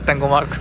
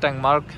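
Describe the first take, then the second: First: An extra vowel follows the ng, giving three syllables. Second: No vowel follows the ng, giving two syllables. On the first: This is how the locals say it. "ওরা বলে ট্যাঙ্গোমার্ক" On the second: This is how it is written. "লেখা দেখি ট্যাংমার্ক"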